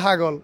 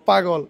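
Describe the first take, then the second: First: The word begins with an h sound. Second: The word begins with a p sound.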